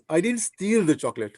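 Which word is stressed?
steal. The stress is on the word steal.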